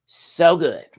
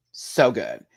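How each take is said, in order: First: High, loud, gushing "So good"; gushing praise. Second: Said in the usual way. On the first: Real, not acted. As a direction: rave about it with a burst.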